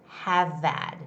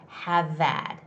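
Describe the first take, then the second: Both takes have the same delivery.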